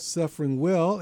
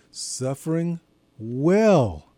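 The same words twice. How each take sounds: First: Said in the usual way. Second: Slow "suffering", then WELL set apart and drawn out; stress on WELL. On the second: Real, not acted. Preacher pointing listeners to the key word, stress on "well". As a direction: lean hard on "well" after a slight pause. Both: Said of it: "I emphasized the word".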